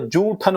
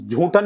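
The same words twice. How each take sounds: First: जूठन with an unaspirated j at the start; correct pronunciation. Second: झूठन with a breathy aspirated jh at the start; wrong pronunciation. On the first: Teacher correcting students, जूठन with plain unaspirated j. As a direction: say जूठन opening on plain ज, no puff. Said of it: "जूठन होता है". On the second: Teacher showing students the mistake, झूठन with aspirated jh. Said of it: "झूठन नहीं होता". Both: Shown as a demonstration.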